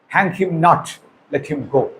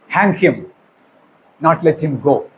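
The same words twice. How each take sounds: First: There is a pause after 'not'. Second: There is a pause after 'him'.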